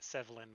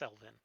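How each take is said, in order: First: The V sound comes before the L sound. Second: The L sound comes before the V sound. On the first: The speaker calls it wrong. "I keep mispronouncing it Sevlin" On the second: The speaker calls it right. "but it's Selvin"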